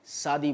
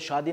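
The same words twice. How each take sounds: First: It is said in a regional pronunciation. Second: It is said in the standard pronunciation. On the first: The speaker calls it wrong. "शादी बोलते हैं" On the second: The speaker calls it right. "शादी नहीं"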